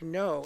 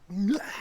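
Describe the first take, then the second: First: It is said flatly with little energy. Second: It is said forcefully with lots of energy.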